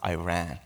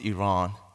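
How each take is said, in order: First: It sounds like the English words 'I ran'. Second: It is said the Persian way, unlike 'I ran'. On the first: This is how English speakers say it. "I learned to pronounce it Iran, like I ran" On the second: This is how people from the country say it. "we pronounce it Iran"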